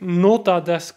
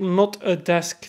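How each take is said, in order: First: It is grouped as 'nota' plus 'desk'. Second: It is grouped as 'not', 'a', 'desk'. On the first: A desk for taking notes. The speaker calls it wrong. "In de zin van notas nemen, desken" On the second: It is not a desk. The speaker calls it right. "Dat is hoe dat je het moet uitspreken"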